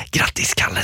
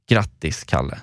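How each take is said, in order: First: A sly, unvoiced whisper. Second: Said in the usual way. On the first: Friend whispering a birthday greeting at the door, sly whisper. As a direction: breathe it mischievously, no voice at all. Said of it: "Du viskar till mig så här".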